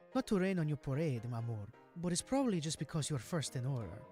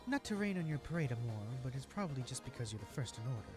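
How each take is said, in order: First: It is said in a Hispanic accent. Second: It is said in a plain, unaccented voice.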